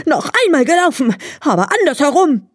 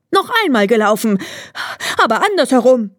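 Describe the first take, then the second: First: High, fast exasperated hare; furious hare. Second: Fast, high hare voice; hare demanding. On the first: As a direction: spit it out beside himself with rage. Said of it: "ganz außer sich vor Ärger, schrie". (hoch, schnell, außer sich vor Ärger) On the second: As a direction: rattle it off, insisting on a rematch. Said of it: "rief er". (schnell und hoch fordernder Hase) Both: A narrator's reading.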